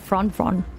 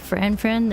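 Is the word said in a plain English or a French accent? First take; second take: French; plain English. First: It is said in a French accent. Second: It is said in a plain English accent. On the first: "They try to, to do the French accent" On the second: "they don't say friend friend"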